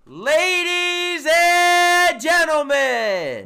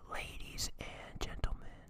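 First: It is yelled loudly. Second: It is said very quietly.

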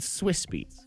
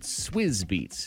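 First: The first word ends with a hissing s sound. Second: The first word ends with a buzzing z sound. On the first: "I've always said Swiss" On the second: "I always said [name]"

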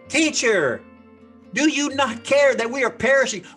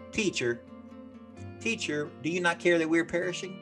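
First: It is screamed in panic. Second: It is said calmly and quietly.

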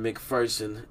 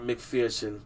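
First: The second syllable sounds like "fur." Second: The second syllable sounds like "fear." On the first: The speaker calls it right. "So Aaron McPherson" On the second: The speaker calls it wrong. "not McPherson, because there ain't no fucking fear in this fur"

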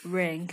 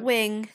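First: The word begins with an R sound. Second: The word begins with a W sound. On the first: The speaker calls it right. "I'd just like to translate for the listeners. Ring" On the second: The speaker calls it wrong. "Not but... wing"

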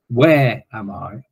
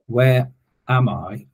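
First: The stress is on "where". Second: The stress is on "am".

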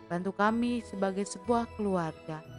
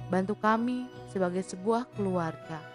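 Both takes have the same delivery.

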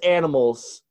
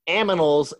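First: The n comes before the m sound. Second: The m comes before the n sound. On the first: The speaker calls it right. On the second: The speaker calls it wrong.

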